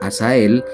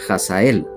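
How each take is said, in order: First: The name starts with a soft h sound. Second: The name starts with a harsh j sound. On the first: "con H" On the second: "o bien como J"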